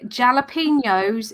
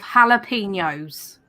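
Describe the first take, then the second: First: The word starts with a hard J sound. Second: The word starts with an H sound. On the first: The speaker calls it wrong. "when people say jalapenos" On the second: The speaker calls it right. "It's a silent J"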